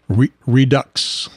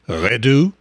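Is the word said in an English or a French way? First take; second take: English; French. First: It is said with an English pronunciation. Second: It is said with a French pronunciation.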